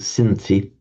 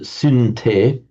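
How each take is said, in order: First: The middle consonant is a th sound. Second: The middle consonant is a t sound. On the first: This is the present-day pronunciation. "in modern Greek, they pronounce it synthi" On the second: This is the ancient pronunciation. "in classical Greek, it would pronounce it synte"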